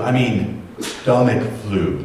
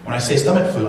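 First: Slow, heavy weight on "stomach"; stress on stomach. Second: Said in the usual way. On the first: Shown as a demonstration. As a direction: lean hard on "stomach flu", slowly.

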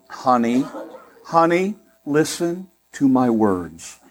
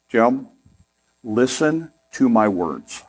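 First: Slow, sugary "honey, honey, listen to my words"; drawn-out sweet warning with a light laugh; sweet Southern wife. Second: Slow, sugary "listen to my words"; lightly voiced sweet Southern wife, drawn out slowly. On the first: Retold or imitated. Husband imitates his wife's sweet warning, slow and sugary. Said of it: "she does it in such a sweet way". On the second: Husband recalls his wife's sweet warning, slow and sugary. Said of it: "she looks at me and she says".

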